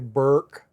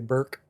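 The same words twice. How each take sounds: First: The name is said fully, with a longer vowel. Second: The name is clipped short, with a quick vowel.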